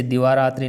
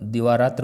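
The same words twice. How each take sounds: First: दिवारात्रि with a "tri" ending; quick दिवारात्रि ending in "i"; wrong form. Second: दिवारात्र ending on "tra", no "i"; quick दिवारात्र without final "ee"; correct form. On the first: Teacher repeats the faulty form, emphatic. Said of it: "नहीं". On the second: Teacher repeats the right form, firm. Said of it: "होता है". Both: Shown as a demonstration.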